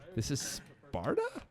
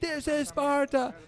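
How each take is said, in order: First: It is said as a rising question. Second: It is said as a plain statement.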